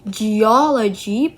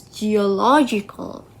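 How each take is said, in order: First: "geology" slowly, with a louder stressed "o". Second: "geological" with the third syllable "lo" stressed. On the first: Contrasting base word with geological, "geology" slowly stressed on "o". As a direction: stretch out "geology", hitting the second syllable. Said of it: "stress was on the O". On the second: Contrasting it with geology, "geological" stressed on "lo". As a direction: say "geological", leaning on the "lo". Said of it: "the stress was shift to low". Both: Shown as a demonstration.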